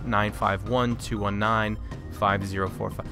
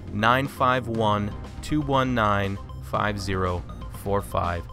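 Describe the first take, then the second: First: The number is read out very quickly. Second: The number is read out slowly and clearly. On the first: The speaker calls it wrong. "I feel like I'm saying that really fast" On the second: The speaker calls it right. "let me fix that"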